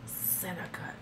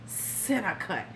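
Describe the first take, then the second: First: Breathy creepy whisper; soft mock come-on, whispered; whispered imitation. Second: Slow, soft leering murmur; quiet mock come-on, drawn out; creepy imitation. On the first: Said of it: "whispered creepy imitation". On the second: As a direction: savour the words like a creep. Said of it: "he says it like that".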